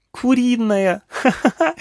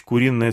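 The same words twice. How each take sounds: First: Put-on very high, delighted child squeal and giggle; gleeful mocking child echo, acted; laughing little girl. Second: Said in the usual way. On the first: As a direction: squeal the word back, then laugh like a small girl. Girl laughs at the funny word.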